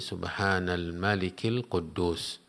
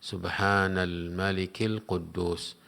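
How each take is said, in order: No difference in how they are said.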